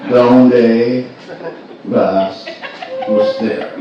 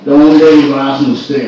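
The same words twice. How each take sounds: First: It is said a little more slowly. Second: It is said at normal speed.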